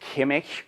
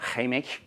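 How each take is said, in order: First: The word begins with a stop consonant. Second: The word begins with a fricative consonant. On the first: This is the basic form of the word. "Química es" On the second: This is the lenited form of the word. "y aquí tenemos"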